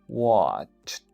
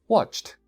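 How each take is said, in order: First: The word is said more slowly. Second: The word is said at normal speed.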